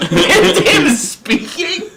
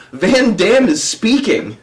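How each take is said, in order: First: Very high, slow question through laughter; laughing squeak rising at the end; incredulous laughing. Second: Slow, raised-pitch mock announcement; slowly imitating an earnest prankster; straight-faced announcement. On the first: Real, not acted. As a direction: repeat it in helpless disbelief. Repeats the lie in disbelief. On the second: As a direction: deliver the absurd lie with care. Prankster announces fake event.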